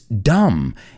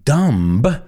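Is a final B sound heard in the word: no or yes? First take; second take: no; yes. First: No B sound is heard at the end. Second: A B sound is heard at the end. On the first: The speaker calls it right. "It's dumb" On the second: The speaker calls it wrong. "we don't pronounce that B in there. So it's not dumb"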